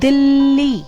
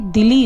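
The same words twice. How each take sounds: First: The l sound is doubled and held. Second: The l sound is single and short. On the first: "मैंने दिल्ली उस ला पर कितना pressure डाला है" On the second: "अगर मैं ये आधा ला हटाकर इसका उच्चारण करती हूं तो ये दिल्ली होगा"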